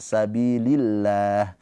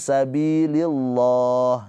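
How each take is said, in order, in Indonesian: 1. L di 'lillah' ringan dan tipis. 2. L di 'lillah' berat dan tebal. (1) "lafadz Allah dibaca dengan tarkik tipis"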